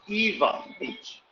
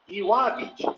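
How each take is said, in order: First: The middle consonant sounds like a V. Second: The middle consonant sounds like a W. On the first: The speaker calls it right. "It's Eva Beach. Eva, like a girl's name is Eva" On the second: The speaker calls it wrong. "You would think it would be Ewa Beach"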